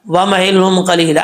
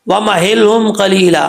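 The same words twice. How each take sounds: The two takes are said the same way.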